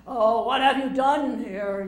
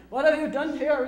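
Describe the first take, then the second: First: Slow, loud, grand stage delivery; booming tragic line. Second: Loud, higher stage declaiming; booming tragic line. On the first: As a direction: declaim it like a great Shakespearean actor. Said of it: "you say this". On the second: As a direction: show the pupil how to thunder it. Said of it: "And say". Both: Retold or imitated.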